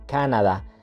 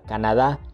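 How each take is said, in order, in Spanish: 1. La sílaba tónica es la primera. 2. La sílaba tónica es la última. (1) "en inglés se pronuncia de forma esdrújula" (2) "en español la pronunciamos de forma aguda"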